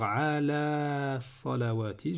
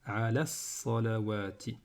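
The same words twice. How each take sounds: First: The final vowel of 'ala' is held long. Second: The final vowel of 'ala' is short, linked directly. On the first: The speaker calls it wrong. "au lieu de dire" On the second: The speaker calls it right. "il va également faire disparaître eh bien, la prolongation précédente"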